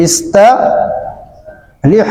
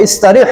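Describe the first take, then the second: First: ইস্তারিহ stretched very slowly; drawn-out demo. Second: Said in the usual way. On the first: Shown as a demonstration. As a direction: draw out ইস্তারিহ as slow as you can. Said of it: "কত সহজ দেখছেন?". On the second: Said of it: "ফলে কি হবে?".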